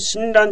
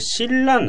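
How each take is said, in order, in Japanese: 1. 真ん中の子音は n の音です。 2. 真ん中の子音は二重の l の音です。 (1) "신랑じゃなくて" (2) "니은が、리을の前にあるので、리을리을になっちゃうんですよ"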